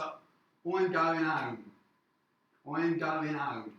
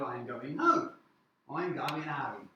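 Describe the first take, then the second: First: Dropped-h London street accent, slowly; London street accent demo. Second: Said in the usual way. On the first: Shown as a demonstration. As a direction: say it like a Londoner, "I'm going home" with no h. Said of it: "they might say". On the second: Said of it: "Instead of".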